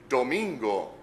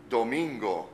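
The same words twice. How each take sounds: The two takes are said the same way.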